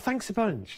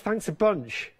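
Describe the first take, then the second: First: It is said warmly and sincerely. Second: It is said with a sarcastic, grudging tone. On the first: The thanks is genuinely meant. "You see, that's lovely" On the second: The thanks is not really meant. "it's all in the delivery"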